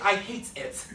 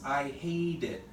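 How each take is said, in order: First: The t is held, and the words sound separate. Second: The t flows smoothly into the following vowel. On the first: The speaker calls it wrong. "I would never say I hate it. Ooh, awkward, alien sounding English" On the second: The speaker calls it right. "This continues into here. This is a vowel"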